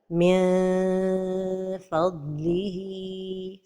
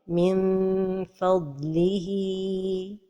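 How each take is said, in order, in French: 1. La nasale est étirée en un son de voyelle long. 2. Les lèvres se ferment sur la nasale avant le f. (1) "trop éloigner la langue du palais supérieur... comme si on prononçait un med" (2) "La première erreur est de fermer les lèvres... comme si on prononçait un mime"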